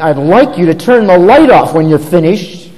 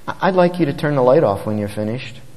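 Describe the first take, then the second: First: It is said in a harsh, frustrated tone. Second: It is said in a gentle, considerate tone. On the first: The speaker is venting their own frustration. The speaker calls it wrong. "which one is designed to vent our own frustration" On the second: The speaker considers the child's feelings. The speaker calls it right. "which one considers his feelings"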